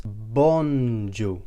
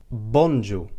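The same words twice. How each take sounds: First: BONJOUR stretched very slowly, bon... jour; slow demonstration. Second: BONJOUR said as one clear word, Maltese style. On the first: Teacher repeats it for learners, bonjour slowly drawn out. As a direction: draw out each syllable of bonjour. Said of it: "That's bonjour". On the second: Teacher introduces the next greeting, clearly said bonjour. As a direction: present bonjour clearly at normal speed. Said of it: "the next greeting that we have is". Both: Shown as a demonstration.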